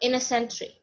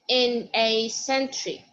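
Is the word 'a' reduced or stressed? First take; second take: reduced; stressed. First: The word 'a' is quick and unstressed. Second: The word 'a' is fully stressed. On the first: The speaker calls it right. "I'm going to pronounce it but not stressed" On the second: The speaker calls it wrong. "He didn't say in a century. No, I want it not stressed"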